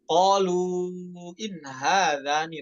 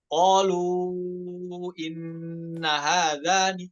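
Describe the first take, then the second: First: The nun is single and carries no vowel. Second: The nun is doubled and followed by a vowel. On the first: This is the reading of Hafs. The speaker calls it right. "dibaca sukun in-nya bukan tasydid" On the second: This is the reading of another transmission. The speaker calls it wrong. "kata in-nya dibaca tasydid ... salah"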